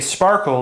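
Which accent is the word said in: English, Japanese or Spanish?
English. The word starts directly with an sp cluster.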